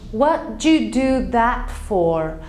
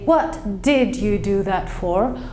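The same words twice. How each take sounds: First: The word did is contracted onto what. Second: The word did is pronounced fully and separately. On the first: The speaker calls it right. "We sort of contract it. We say" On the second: The speaker calls it wrong. "We don't actually say"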